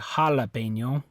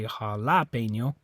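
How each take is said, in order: First: The stress is on the first syllable. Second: The stress is on the second syllable. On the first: "it's not this A. You don't say jalapeno" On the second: "It's not that A. You don't say jalapeno"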